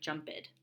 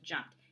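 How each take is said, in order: First: The ending is said as a separate extra syllable. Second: The ending is a single short t sound. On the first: The speaker calls it wrong. "It almost looks like jumped" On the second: The speaker calls it right. "It's pronounced jumped"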